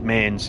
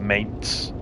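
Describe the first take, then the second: First: The word ends with a plain s sound. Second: The word ends with a ts sound. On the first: The speaker calls it wrong. "I still said mains" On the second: The speaker calls it right. "I didn't do the tss bit on the end"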